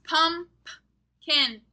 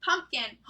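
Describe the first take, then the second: First: "Pumpkin" loud, broken as "pump", pause, "kin"; "Pumpkin" slowly in parts with a puffed "p" before "kin"; letter P sounded out. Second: Said in the usual way. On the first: Shown as a demonstration. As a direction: split "Pumpkin" in two, popping both "p" sounds. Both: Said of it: "We hear our letter for this week twice in pumpkin".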